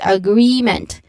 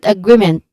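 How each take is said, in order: First: The second-syllable vowel is long and clear. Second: The second-syllable vowel is short and quick. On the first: The speaker calls it right. "a long E sound" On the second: The speaker calls it wrong. "not agreement"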